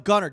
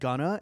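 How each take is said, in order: First: The word ends with a hard R sound. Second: The word ends without an R sound. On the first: The speaker calls it right. "Gun with a hard R" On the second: The speaker calls it wrong. "you said [name]"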